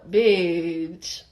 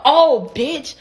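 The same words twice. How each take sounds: First: BITCH stretched out low and easy; low, unhurried "Bitch", no bite; casual drawn-out bitch. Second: BITCH as a raised, lively exclamation after "oh"; "Oh, bitch" pitched up and punchy; exclaimed bitch. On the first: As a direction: let a long, low "Bitch" slide out. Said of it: "It was like a". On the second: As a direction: call out "Oh, bitch" with a lifted punch. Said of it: "it wasn't like a". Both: Shown as a demonstration.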